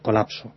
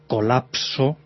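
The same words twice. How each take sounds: First: The P before S is weak and relaxed. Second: The P before S is strong and exaggerated. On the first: The speaker calls it right. "es el colapso" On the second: The speaker calls it wrong. "no es colapso"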